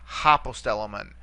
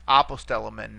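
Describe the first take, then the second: First: Hopostellomen with an audible h at the start; added initial h. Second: Said in the usual way. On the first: Shown as a demonstration. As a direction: open hopostellomen on an h sound. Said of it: "not hopostellomen". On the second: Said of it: "notice the smooth breathing mark".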